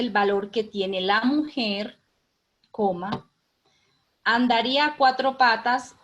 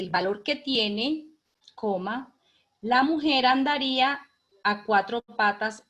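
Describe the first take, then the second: First: The break comes after the word 'mujer'. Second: The break comes after the word 'tiene'. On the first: Men would search desperately for women if they knew their worth. "eso sí lo lee una mujer" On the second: Women would crawl searching for men who knew their own worth. "si lo lee un hombre, me imagino que lo leerá así"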